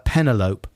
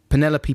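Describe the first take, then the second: First: It is said to rhyme with envelope. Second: It is said without rhyming with envelope.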